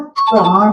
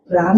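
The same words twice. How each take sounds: First: प्राण said correctly, ending on a retroflex ण; correct pronunciation. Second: प्राण said wrongly with a dental n, as praan; wrong pronunciation. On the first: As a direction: say प्राण the right way, tongue curled back for the final ण. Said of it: "प्राण होता है". (प्राण को सही ढंग से, मूर्धन्य ण के साथ बोलें) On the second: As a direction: say प्राण the wrong way, with a plain n at the end. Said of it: "प्राण नहीं होता". (प्राण को गलत ढंग से, दंत्य न के साथ बोलें) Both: Shown as a demonstration.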